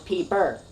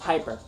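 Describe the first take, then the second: First: The first vowel sounds like 'ee'. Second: The first vowel sounds like 'eye'. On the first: "with a P I and purr, so you sound Pikachu like you normally say, and then Peeper" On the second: "It's the original pronouncement"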